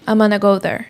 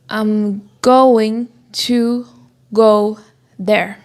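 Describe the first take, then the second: First: The reduced form gonna is said. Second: The full form going to is said. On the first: "I will say" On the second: "usually I won't say"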